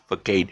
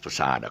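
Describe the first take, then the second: First: The middle consonant sounds like a hard k. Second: The middle consonant sounds like a soft s. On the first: The speaker calls it wrong. "a lot of people pronounce it is facade" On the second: The speaker calls it right. "actually it's pronounced as facade"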